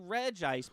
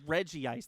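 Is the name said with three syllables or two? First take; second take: two; three. First: The name is said with two syllables. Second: The name is said with three syllables. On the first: "I always say Reg Ice" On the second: "He pronounces it Reggie Ice"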